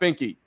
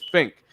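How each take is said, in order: First: The name has two syllables, ending in ee. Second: The name has one syllable, ending in k. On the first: The speaker calls it wrong. "But it's not Finky" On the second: The speaker calls it right. "It's Fink"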